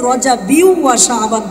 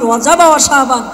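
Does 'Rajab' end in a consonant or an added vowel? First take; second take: added vowel; consonant. First: Rajab takes an added vowel ending before 'wa'. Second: Rajab ends on a bare consonant before 'wa'. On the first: The speaker calls it right. "সঠিক উচ্চারণ হচ্ছে" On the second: The speaker calls it wrong. "বলে রজব আর শাবান, কিন্তু এটা ভুল।"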